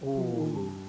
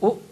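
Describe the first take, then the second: First: The vowel is simply held longer. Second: The vowel is followed by a glottal catch. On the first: "becomes U" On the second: "Hamza Madmuma plus Hamza Sakina"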